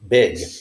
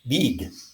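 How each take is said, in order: First: The vowel is a short i sound. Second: The vowel is a long ee sound. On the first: The speaker calls it right. "That is the short I sound" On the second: The speaker calls it wrong. "It is not pronounced big, which is how many Spanish speakers pronounce it"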